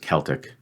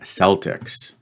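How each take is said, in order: First: The word begins with a hard K sound. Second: The word begins with a soft S sound. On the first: This is the standard form of the word. The speaker calls it right. "the correct pronunciation really is Celtic" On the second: This is how the local sports team is named. The speaker calls it wrong. "Here in Boston, um, we love our Boston Celtics"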